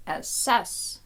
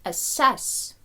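Both takes have the same delivery.

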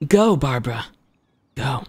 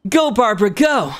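First: Restrained, lower character cheer; Child voice, lower take. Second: High, energetic character cheer; higher, urging character shout-out; Child voice. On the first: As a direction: bring it down, pausing before the last word. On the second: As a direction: pitch it up and cheer her on. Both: Acted. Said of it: "I'll say it in Child's voice for you".

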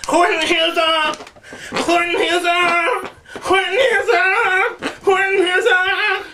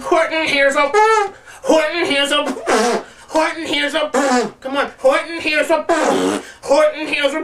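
First: Much higher, slow wailing repeats; mock anguished cry. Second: Mock stuck repetition. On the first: Pushing through the joke title, hammed-up wailing. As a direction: wail it like it hurts. Comic pained cries. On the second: Pretending to forget the title, higher strained repeats. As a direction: keep failing to find the last word. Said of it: "It's like".

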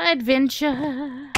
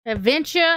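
First: "adventure." stretched long and slow; slow drawn-out adventure. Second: Said in the usual way. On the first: Pretend. Chanting "adventure." slowly to the villagers. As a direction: savor each syllable of "adventure.".

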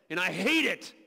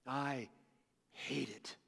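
First: Lower, pressed, bitter declaration; firm hate. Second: Much lower and far softer, almost breathed; hushed repeat. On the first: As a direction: spit out "hate" with low force. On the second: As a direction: drop to a near-silent, heavy "hate it". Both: Acted. Voicing Jesus hating death.

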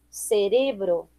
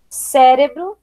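First: "cerebro" slower and softer, stressed on RE; Spanish stress. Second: Said in the usual way. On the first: Shown as a demonstration. Teacher reading the list, "cerebro" with Spanish stress on RE. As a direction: say "cerebro" as ce-RE-bro. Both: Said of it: "diferença entre as palavras heterotônicas".

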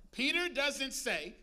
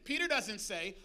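First: Slow, deliberate setup, each word weighed; slowed for emphasis. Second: Said in the usual way. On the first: Shown as a demonstration. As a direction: drag it out to build suspense. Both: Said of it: "Peter doesn't say (repeat)".

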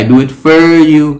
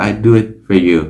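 First: "for" pushed high and loud; wrong stressed for. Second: "for" said as a light weak fer; reduced for. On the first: Teacher showing the wrong version: "for" hit high and loud. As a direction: overstress "for" as a mistake. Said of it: "là sai". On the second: Teacher showing the right version: "for" as a light fer. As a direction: keep "for" light and quick. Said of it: "fur là âm nhẹ thôi". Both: Shown as a demonstration.

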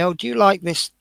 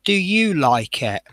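First: "like" stressed, falling tune. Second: "you" stressed, falling tune. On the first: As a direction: lean on "like". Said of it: "People say". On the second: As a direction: lean on "you". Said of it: "my answer is usually". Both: Retold or imitated.

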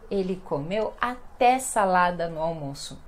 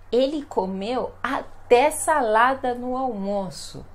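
First: Said in the usual way. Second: "até" drawn out slowly and leaned on; stress on até. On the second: Shown as a demonstration. Teacher modelling an emphatic "até" for learners. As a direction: savour "até" as if it's surprising. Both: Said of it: "para dar ênfase na frase".

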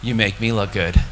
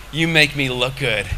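First: God's reply. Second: Lower, grateful words to God; humble thanks to God. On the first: God answering the man in the park, low and assured. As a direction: answer deep and unhurried, as God. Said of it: "You know what he said to me?". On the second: Speaker to God while walking through the park, humbly grateful. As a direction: offer it up in humble gratitude. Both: Retold or imitated.

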